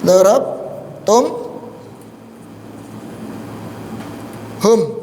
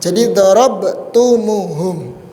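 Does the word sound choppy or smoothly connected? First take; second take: choppy; connected. First: The syllables are broken apart without a linking vowel. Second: The syllables are joined with an added u vowel. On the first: "aslinya kan gini tadi. ... Terputus kan?" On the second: "supaya disambung bacaannya, biar ringan"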